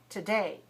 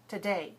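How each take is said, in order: First: The first syllable is weak with a soft T. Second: The same.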